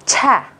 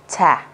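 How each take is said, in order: First: "Chả" with a clear breath burst after the ch; higher aspirated "Chả" set against the plain one. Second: "chả" with a plain ch and no puff of air; simple unaspirated "chả" for contrast. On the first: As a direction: puff air out on "Chả". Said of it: "dấu phẩy ở đây thể hiện bật hơi". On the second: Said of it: "chỉ đơn giản đọc là". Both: Shown as a demonstration.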